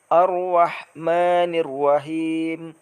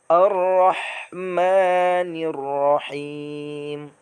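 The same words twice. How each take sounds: First: The r sounds like a w. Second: The r sounds like a clear r. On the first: The speaker calls it wrong. "huruf ro seolah-olah terdengar seperti huruf waw" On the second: The speaker calls it right. "Maka yang benarnya adalah"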